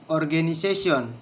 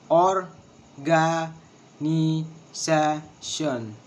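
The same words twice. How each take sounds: First: Said in the usual way. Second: "Organization" very slowly in separate syllables. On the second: Shown as a demonstration. Teacher showing the syllables of organization, syllable by syllable. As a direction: stretch each syllable and leave a gap after it. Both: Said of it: "six syllables".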